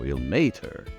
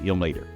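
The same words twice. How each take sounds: First: The middle syllable gets strong stress. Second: The middle syllable gets only light stress. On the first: The speaker calls it right. "stood on the may a little bit more" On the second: The speaker calls it wrong. "Lots of people say Ilmater. And that's actually pretty close"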